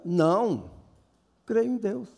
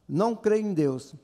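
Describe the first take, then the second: First: There is a pause after the first word. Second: There is no pause after the first word. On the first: The speaker says no and then affirms belief in God. "Se você colocar uma vírgula, fica" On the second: The speaker denies believing in God. "Se você tirar a vírgula"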